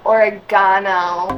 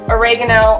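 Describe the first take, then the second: First: It is said in an Australian accent. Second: It is said in an American accent.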